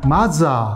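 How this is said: It has Japanese-style sounds, with th turned into j. "그 사람이 말한 말대로 조금 해보 보면"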